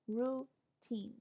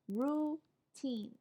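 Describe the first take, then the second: Both takes have the same delivery.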